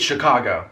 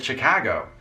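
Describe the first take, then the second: First: "Chicago" as shuh-KAH-go; plain AH in the middle of "Chicago"; speaker's own pronunciation. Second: "Chicago" with a local Chicago A; Chicago native's accent. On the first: Shown as a demonstration. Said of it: "For me, it's Chicago". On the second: Retold or imitated. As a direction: imitate a Chicago local saying "Chicago". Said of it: "that's not how you say it".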